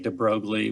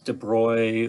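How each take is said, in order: First: The name is said with an English-style pronunciation. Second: The name is said with a French-style pronunciation. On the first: "I say de Broglie, which a lot of people do" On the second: "however the French might pronounce that"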